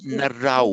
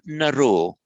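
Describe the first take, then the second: First: The word ends with an 'au' diphthong. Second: The word ends with a plain 'o' vowel. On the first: The speaker calls it right. "It's Narau" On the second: The speaker calls it wrong. "I heard you say as if it were Naro. So be very careful"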